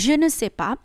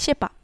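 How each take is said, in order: First: The full form with 'ne' is pronounced. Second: It is shortened, with 'ne' dropped. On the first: "যদি আমি বলি je ne sais pas" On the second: "ওরা বলবে sais pas। ওরা খুব ফাস্ট বলে"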